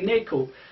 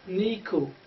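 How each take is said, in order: First: The last vowel sounds like O. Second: The last vowel sounds like U. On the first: It follows a regional dialect. The speaker calls it wrong. "Sometimes we wrongly pronounce it as in Kashmiri dialect" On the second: It follows the standard reading. The speaker calls it right. "It's more related to U sound than O sound"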